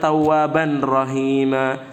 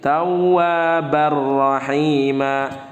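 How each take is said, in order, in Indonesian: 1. Bunyi n yang jelas terdengar sebelum r. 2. Bunyi n menyatu sepenuhnya ke dalam r setelahnya. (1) "jangan tawwaban rahima" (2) "tapi tawwabar rahima"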